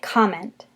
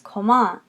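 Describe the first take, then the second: First: The stress is on the first syllable. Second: The stress is on the second syllable. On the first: "in English we say comment, and we have that accent more on the first syllable" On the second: "In French it's comment. You're going to accent the second syllable"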